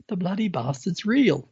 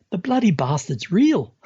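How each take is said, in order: First: Said in the usual way. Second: Astonished exclaim. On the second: Retold or imitated. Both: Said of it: "That's exactly what he said".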